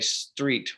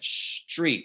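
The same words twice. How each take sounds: First: The start is a plain s sound. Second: The start sounds like shtreet, with sh.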